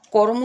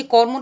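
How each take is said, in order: First: কর্ম said as ko-rom, vowel between র and ম; কর্ম with its cluster split as ko-rom; eased pronunciation. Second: Said in the usual way. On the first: Shown as a demonstration. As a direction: break কর্ম into two syllables, ko-rom. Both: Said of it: "কর্ম থেকে কর্ম উচ্চারণ হলো".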